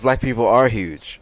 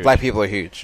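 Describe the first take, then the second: First: The word are is stressed. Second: The word huge is stressed. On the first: The speaker calls it wrong. "I wouldn't put the emphasis on the words "are" there" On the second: The speaker calls it right.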